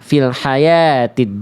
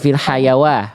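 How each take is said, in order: First: The word is said with a 'ti' sound. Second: The word is said with a 'wa' sound. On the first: The speaker calls it right. "wawunya ini wawu ziyadah, jadi nggak dibaca" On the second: The speaker calls it wrong. "Jadi bukan fil hayawa"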